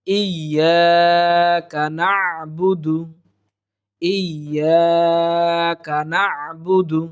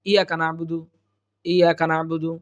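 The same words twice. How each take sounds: First: "ইয়াকা না'বুদু" very slow, doubled y, long "yaa", throaty ayn; correct tajweed. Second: "ইয়াকা না'বুদু" run together, no stretch or throat sound; light, careless pronunciation. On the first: Teacher modelling the verse, careful tajweed. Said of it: "সঠিক উচ্চারণ হচ্ছে". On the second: Teacher showing how many read it easily, light mistaken reading. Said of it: "সহজে হালকাভাবে উচ্চারণ করি". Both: Shown as a demonstration.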